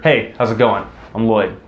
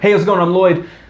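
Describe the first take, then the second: First: It is said slowly and calmly. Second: It is said fast and rushed.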